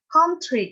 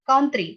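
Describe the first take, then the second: First: It is said with a British accent, breathy t. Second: It is said with an American accent, plain t. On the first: "Tapi kalau misalnya British English itu jadi kayak country" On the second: "Kalau misalnya American English kan country ya enggak?"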